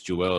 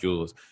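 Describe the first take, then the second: First: The name is said like 'Joel'. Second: The name is said like 'Jules'. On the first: The speaker calls it right. "It's Joel" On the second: The speaker calls it wrong. "it's not Jules"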